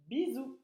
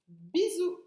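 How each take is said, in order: First: Said in the usual way. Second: Bisous with a high, bright lifted I; sounding out. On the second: Shown as a demonstration. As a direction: pitch Bisous up on the I. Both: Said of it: "C'est le son I".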